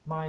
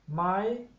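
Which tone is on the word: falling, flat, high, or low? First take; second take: low; high. First: The pitch is held low throughout. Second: The pitch is held high throughout. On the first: It means new. "low tone my" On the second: It is a yes-no question particle. "the high tone my"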